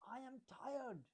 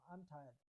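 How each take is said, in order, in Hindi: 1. यह गुस्से में, ज़ोर देकर बोला गया है। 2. यह शांत और सामान्य तरीके से बोला गया है।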